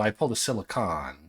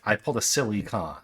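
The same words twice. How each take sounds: First: The vowel after the L is a reduced schwa. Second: The vowel after the L is a full vowel. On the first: The speaker calls it wrong. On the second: The speaker calls it right.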